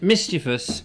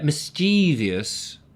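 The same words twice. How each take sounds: First: It is said with an English pronunciation. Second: It is said with an American pronunciation. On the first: "mischievous is English" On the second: "where mischievous is American"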